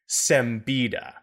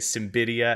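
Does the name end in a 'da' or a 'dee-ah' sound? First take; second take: da; dee-ah. First: The name ends with a plain 'da' sound. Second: The name ends with a 'dee-ah' sound. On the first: The speaker calls it right. "It is Simbida" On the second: The speaker calls it wrong. "I got it totally wrong when I was a kid and read it as Simbidia. I moved one of the I's to between the D and the A"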